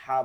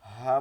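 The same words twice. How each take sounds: First: হা pulled back into the throat, loud; loud throat-squeezed হা; wrong, throaty ha. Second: Loud, unobstructed হা; correct, clean ha. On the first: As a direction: say হা from inside the throat, as a mistake. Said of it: "একটু গলার মধ্যে নিয়ে যাই". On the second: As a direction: say a plain open হা, clear of the throat. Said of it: "কোনো বাতাস বসবে না". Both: Shown as a demonstration.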